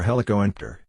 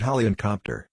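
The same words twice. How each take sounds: First: "helicoenter" said as helico and pter; two parts, HELICO and TER with silent P; true word split. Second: "helicopter" split as heli-copter; "helicopter" in two parts, heli plus copter; wrong word split. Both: Shown as a demonstration. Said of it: "The word helicopter has two components".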